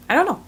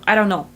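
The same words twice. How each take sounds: First: "I don't know" lifted higher with a questioning rise at the end; puzzled rising take. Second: Said in the usual way. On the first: Shown as a demonstration. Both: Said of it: "it can come in a lot of ways".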